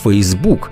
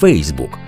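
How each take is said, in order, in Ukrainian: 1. Наголос на другому складі. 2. Наголос на першому складі. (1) "нині підтримують наголос на другому складі" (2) "наголошувати потрібно на першому складі"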